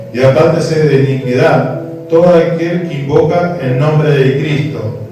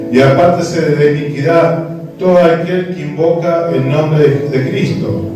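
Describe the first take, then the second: No difference in how they are said.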